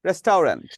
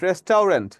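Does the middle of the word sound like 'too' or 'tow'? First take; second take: tow; tow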